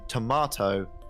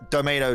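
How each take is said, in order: First: It is said with a British accent. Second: It is said with an American accent.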